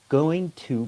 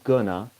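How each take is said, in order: First: Both words of 'going to' are said fully. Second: 'Going to' is squeezed into one short 'gonna'. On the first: "Going to becomes gonna" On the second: "becomes gonna in spoken English"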